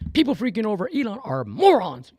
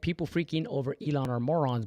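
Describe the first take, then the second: First: It is said with loud, intense, high energy. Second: It is read out in a plain, calm voice. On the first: "but he would say it like this" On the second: "He he said"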